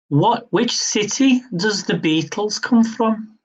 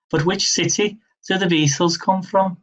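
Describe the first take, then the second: First: Hammed-up, half-hearted Liverpool accent; a mock Liverpool accent, badly done on purpose; terrible Liverpool accent attempt. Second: Said in the usual way. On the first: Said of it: "I tried it in the accent". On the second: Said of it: "With the worst terrible accent".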